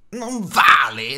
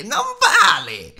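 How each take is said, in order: First: Slow rising creature hiss, louder; Gollum hissing. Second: Sudden high shrieking creature cry, much louder; hissed shout. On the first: Gollum protests to Bilbo, slow rising hiss. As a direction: Gollum drags the words out in protest. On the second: Gollum screeching at Bilbo over the unfair riddle. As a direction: Gollum screeches his protest. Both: A narrator's reading. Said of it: "sibilò".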